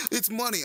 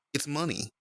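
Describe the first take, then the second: First: Much higher, squeaky mock alarm; a playful yelp of recognition. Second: Said in the usual way. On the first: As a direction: pretend to be startled by the name. Greets donor Money in VR.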